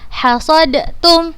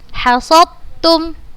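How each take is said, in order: First: A distinct d is pronounced before the t. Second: The d merges completely into the following t. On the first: The speaker calls it wrong. "bukan dibaca hasadtum" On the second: The speaker calls it right. "langsung dimasukkan ke huruf yang kedua"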